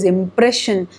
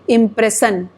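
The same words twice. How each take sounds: First: The middle consonant is an 'sh' sound. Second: The middle consonant is a plain 's' sound. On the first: The speaker calls it right. "sure should be there and it should not be sir" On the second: The speaker calls it wrong. "If I say impression, then what will happen with the word?"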